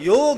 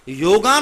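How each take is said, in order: First: The word ends without a final long vowel. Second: The word ends with a long 'aa' vowel. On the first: The speaker calls it right. "योग है" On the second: The speaker calls it wrong. "योगा नहीं है"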